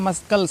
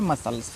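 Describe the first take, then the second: First: A k sound follows the s. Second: The c is silent, with no k sound. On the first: The speaker calls it wrong. "इसको मस्कल्स नहीं पढ़ना है" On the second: The speaker calls it right. "इसको पढ़ना है मसल्स"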